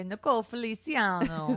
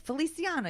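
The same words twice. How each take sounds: First: "Nicole Feliciano" with a light Italian lilt; Italian flair. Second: "Feliciano" lifted higher with an Italian lilt; Italian pronunciation. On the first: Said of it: "when you say". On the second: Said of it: "like, an Italian". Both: Shown as a demonstration.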